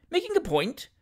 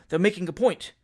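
First: High-pitched baffled question; puzzled echo. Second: Said in the usual way. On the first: Acted. Novice shooter puzzled by the hunting term, puzzled echo. Winkle echoes the unknown term.

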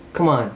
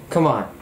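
No difference in how they are said.

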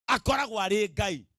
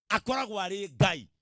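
No difference in how they are said.

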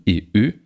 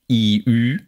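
First: "E, Ü" short and open, as in bitte and füllt; lax vowels. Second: "I, Ü" long and close; tense vowels. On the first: Lecturer illustrates ungespannte Vokale, lax and short. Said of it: "und ungespannten". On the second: Lecturer illustrates gespannte Vokale, tense and long. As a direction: draw out "I, Ü" as tense front vowels. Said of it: "Paare von gespannten". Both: Shown as a demonstration.

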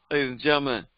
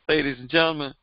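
No difference in how they are said.

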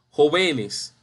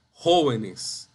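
First: Jo-VÉ-nes, middle syllable stressed; wrong penultimate stress. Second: JÓ-venes, slowly stressed at the start; correct stress on first syllable. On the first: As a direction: say "jóvenes" wrongly as joVÉnes. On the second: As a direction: slowly land "jóvenes" on JÓ. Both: Shown as a demonstration.

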